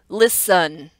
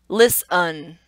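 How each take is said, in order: The two takes are said the same way.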